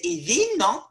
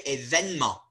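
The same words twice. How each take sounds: First: Événement with the middle E sounded; old three-vowel form. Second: Événement with the middle E dropped; modern form. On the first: Teacher showing what nobody says anymore. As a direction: say événement as é-vé-ne-ment. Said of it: "No one says". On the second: Teacher giving the everyday pronunciation. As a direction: say événement as é-vène-ment. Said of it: "they say". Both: Shown as a demonstration.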